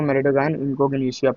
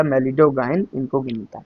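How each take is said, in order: First: "malign incognita" said as "me-le-do-gain in-cog-ni-shia"; students' mispronunciation. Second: "malign incognita" said slowly as "me-li-do-gain in-cog-ni-ta"; correct pronunciation. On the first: Retold or imitated. Teacher showing students' misreading of the name, mispronounced. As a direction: imitate a wrong "malign incognita", ending in "-shia". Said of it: "लेकिन ऐसा कुछ भी नहीं". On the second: Shown as a demonstration. Teacher giving students the proper name, correctly pronounced. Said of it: "इसका जो शुद्ध नाम है वो ऐसे लेते हैं".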